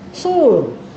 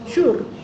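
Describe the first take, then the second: First: The word begins with a plain s sound. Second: The word begins with a sh sound. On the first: The speaker calls it right. "Mana betul?" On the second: The speaker calls it wrong. "S H U R nak baca apa?"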